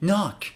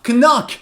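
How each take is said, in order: First: The k at the start is silent. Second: The k at the start is sounded. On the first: The speaker calls it right. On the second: The speaker calls it wrong.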